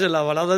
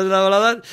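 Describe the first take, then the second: First: Said in the usual way. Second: "baladas" más alto y más fuerte; queja enfática. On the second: Real, not acted. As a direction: recalca "en las baladas" con fastidio. Repite su queja sobre las baladas. (el cantante protesta: "baladas" subido y fuerte)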